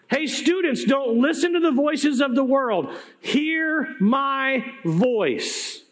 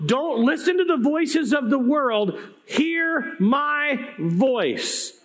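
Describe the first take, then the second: First: Urgent and pitched up, voice breaking, hear my voice dragged out very slow; tearful plea. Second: Raised, impassioned plea, last words stretched very slow; earnest plea. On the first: Real, not acted. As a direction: beg them through tears, slowing right down at the end. Preacher urging students, voice breaking. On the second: Retold or imitated. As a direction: plead with them, drawing out hear my voice. Jesus speaking to parents.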